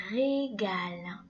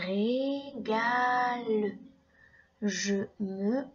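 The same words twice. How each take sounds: First: "régale" drawn out slowly; slow syllables. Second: "Régale" very slowly, each syllable separated. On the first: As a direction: slowly spell out "régale" by sound. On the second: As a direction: drag "Régale" out, ré-ga-le. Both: Shown as a demonstration. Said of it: "Écoute bien chaque syllabe".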